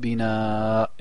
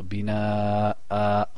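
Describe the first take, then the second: First: The word ends without a glottal catch. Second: The word ends with a glottal catch and vowel. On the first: The speaker calls it wrong. "Je dis pas bina et j'arrête" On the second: The speaker calls it right. "Il faut que j'entende la hamza"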